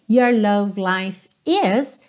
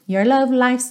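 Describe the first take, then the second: First: The verb is said as a full separate word. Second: The verb is reduced to an s sound. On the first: "Aqui também, your love life is" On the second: "então também contraído"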